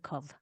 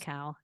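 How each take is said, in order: First: The syllable ends in a 'v' consonant sound. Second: The syllable ends in an 'ow' vowel glide. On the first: The speaker calls it right. "it's a cov" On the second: The speaker calls it wrong. "It's not a cow"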